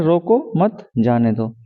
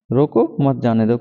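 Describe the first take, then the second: First: रोको मत as one group, pause, then जाने दो; pause after मत. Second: रोको rising, short break, then मत जाने दो falling; group मत with जाने दो, split off रोको; comma after रोको. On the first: Teacher showing the second line's meaning, pause after मत. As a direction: join मत to रोको and break before जाने दो. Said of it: "दूसरी लाइन का मतलब है कि रोको मत". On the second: Teacher showing the first line's meaning, break after रोको. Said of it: "कॉमा है". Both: Shown as a demonstration.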